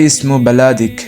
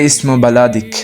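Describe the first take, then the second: Both takes have the same delivery.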